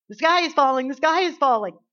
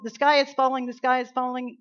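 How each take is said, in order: First: Loud, higher frantic hen cry; panicked Chicken Little. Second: Loud, higher frantic cry; yelled Chicken Little. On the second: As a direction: shout the alarm like a scared chick. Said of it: "yelled little Chicken Little". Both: Retold or imitated.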